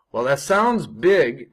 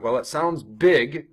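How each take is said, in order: First: Slow, with big leaned on hard and louder; "Well, that sounds big" said slowly, weight on "big"; stress on big. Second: "big" given extra weight, a bit slow; "Well, it sounds big" with "big" punched; stress on big. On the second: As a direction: lean into "big" to make it feel large. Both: Shown as a demonstration. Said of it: "I'm emphasizing the word big".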